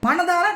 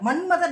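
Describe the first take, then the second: First: The word is said clearly as 'manathaara'. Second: The word is garbled into 'manmatha'. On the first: The speaker calls it right. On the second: The speaker calls it wrong.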